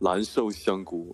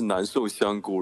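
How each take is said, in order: First: It is said with a southern accent, n becoming l. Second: It is said with standard Mandarin n sounds.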